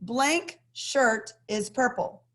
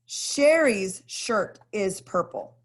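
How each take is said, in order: First: "Blank shirt is purple" read slowly with pauses; slow example sentence. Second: "Sherry's shirt is purple" read slowly, "Sherry's" stressed; slow example sentence. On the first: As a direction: say "Blank" as a beat, evenly. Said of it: "we have a sentence here as an example". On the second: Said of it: "we add an S". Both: Shown as a demonstration.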